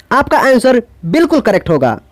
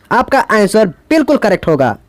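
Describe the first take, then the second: Both takes have the same delivery.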